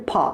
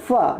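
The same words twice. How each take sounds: First: फा drawn out into a long aa; wrong syllable. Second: फा said short, no long aa; correct syllable. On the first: Teacher contrasting the wrong syllable, फा with a long aa. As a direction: stretch फा into a long vowel. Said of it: "ना कि फा". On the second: Teacher isolating the right syllable, फा kept short. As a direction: clip फा short and quick. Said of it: "सिर्फ फा". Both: Shown as a demonstration.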